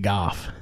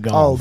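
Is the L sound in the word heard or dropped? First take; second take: dropped; heard. First: The word is said without the L sound. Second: The word is said with the L sound. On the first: The speaker calls it wrong. "But they say Goff" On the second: The speaker calls it right. "when they're saying golf"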